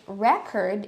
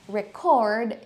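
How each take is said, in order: First: The stress is on the first syllable. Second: The stress is on the second syllable. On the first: It is used as a noun. "we say it record if it's a noun" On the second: It is used as a verb. "we say record if it's a verb"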